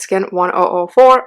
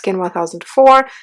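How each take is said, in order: First: The number is read as one oh four. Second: The number is read as one thousand four. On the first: The speaker calls it right. "it's Skin one oh four" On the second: The speaker calls it wrong. "It's not Skin one thousand four"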